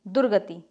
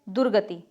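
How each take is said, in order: The two takes are said the same way.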